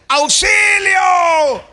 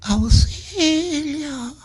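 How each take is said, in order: First: It is shouted loudly with full strength. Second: It is cried very weakly, like someone dying.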